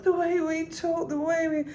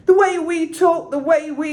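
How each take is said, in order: First: High gentle unpushed croon; not pushed. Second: High and loud, overpushed; high loud overpushed croon; pushed too hard. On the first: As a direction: keep it light and easy up high. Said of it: "it's more like". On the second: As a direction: belt it too much, the wrong way. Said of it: "it's not like". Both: Shown as a demonstration.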